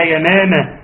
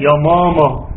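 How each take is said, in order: First: يا ماما with thin, fronted "maemae" vowels; thin out both م sounds in يا ماما; light meem. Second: يا ماما with thick, back "mama" vowels; child's wrong, thickened م in يا ماما; heavy meem. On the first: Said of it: "إيه بترقيق الميم". (يا ماما بترقيق الميم) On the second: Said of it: "يقول لها إيه بترقيق الميم". (يا ماما بتفخيم الميم) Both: Shown as a demonstration.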